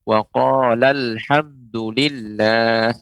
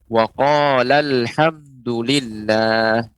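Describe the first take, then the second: Both takes have the same delivery.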